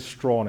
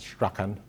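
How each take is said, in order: First: The name is said as one syllable. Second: The name is said with two syllables. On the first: This is how the name is said in Jamaica. "We say Strawn in Jamaica" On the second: This is how some other people say the name. "Some people pronounce that Strachan"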